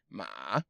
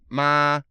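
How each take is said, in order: First: The pitch dips down then rises. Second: The pitch stays high and level. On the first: "You go down and then up" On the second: "first tone is uh, flat tone"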